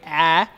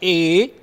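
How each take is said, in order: First: The letter is said as its short sound. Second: The letter is said as its alphabet name. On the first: "the phonic sound of a" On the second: "the alphabetic sound, that is A"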